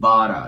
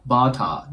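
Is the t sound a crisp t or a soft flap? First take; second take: flap; crisp t. First: The t becomes a soft r-like flap. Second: The t is a clear, crisp t sound. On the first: The speaker calls it right. "のような感じになります" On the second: The speaker calls it wrong. "ではなく"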